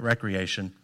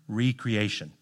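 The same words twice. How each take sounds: First: The word begins with 'rek', as in leisure. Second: The word begins with 'ree', as in re-creation. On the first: Leisure or play. The speaker calls it wrong. "not recreation" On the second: Making something new again. The speaker calls it right.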